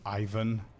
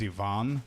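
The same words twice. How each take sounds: First: The name is said in an English pronunciation. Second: The name is said in its native pronunciation. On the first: This is the anglicized form of the name. "the English version is Ivan" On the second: This is the name's original form. "probably the real name is Ivan"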